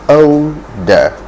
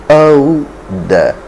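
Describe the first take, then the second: The two takes are said the same way.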